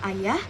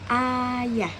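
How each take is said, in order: First: The sounds are held for a normal, short time. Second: One sound is held for a long time. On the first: "Saya ingin mengucapkan kata ayah" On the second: "Saya beri tanda di sini. Maka akan menjadi ayah"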